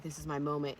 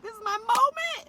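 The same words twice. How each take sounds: First: Said in the usual way. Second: Very high, loud mock yell; re-enacted ecstatic shout; excited yell. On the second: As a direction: squeal it like a thrilled fan. Retold excited realisation at concert.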